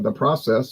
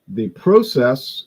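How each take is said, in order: First: The word is pronounced the local American way. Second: The word is pronounced the Canadian way. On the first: "if you live here" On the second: "if you live in Canada"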